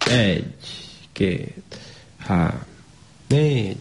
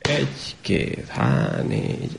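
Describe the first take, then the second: First: The numbers are counted at a slow, even pace. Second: The numbers are counted at twice the first pace. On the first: One number is said per hand beat. "elkezdjük mondani a számokat először" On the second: Two numbers are said per hand beat. "dupla tempóban mondani a számokat a kezünkhöz képest"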